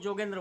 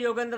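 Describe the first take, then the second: First: The name begins with a j sound. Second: The name begins with a y sound. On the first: "सब लोग जोगेंद्र बोलते हैं" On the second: "उसको कोई भी योगेंद्र नहीं बोलता"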